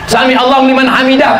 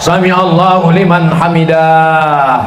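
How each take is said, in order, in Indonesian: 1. Frasa itu diucapkan pendek dan cepat. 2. Frasa itu diucapkan panjang dan ditarik. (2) "saya pernah dengar imam sholat"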